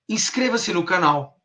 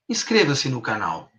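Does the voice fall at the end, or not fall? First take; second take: not fall; fall. First: The pitch does not fall at the end. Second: The pitch falls steadily like a command.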